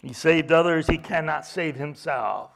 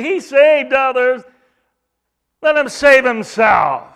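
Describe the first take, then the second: First: Said in the usual way. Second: Loud, higher scornful sneer; mocking. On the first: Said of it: "restates plainly". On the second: Priests sneering at Jesus on the cross, loud higher jeer. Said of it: "So they say".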